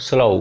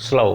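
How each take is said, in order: The two takes are said the same way.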